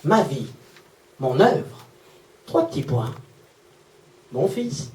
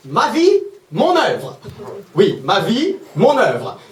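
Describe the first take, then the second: First: Low, hushed, pausing after each phrase; quiet, heartfelt reveal; tender. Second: Slow, pompous caption reading with big pitch swings; theatrically swooping, mocking announcement; mock grandiose. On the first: Retold or imitated. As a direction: read it softly, letting each piece land. Touching final reveal of mother's note. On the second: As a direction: draw it out like an overblown title.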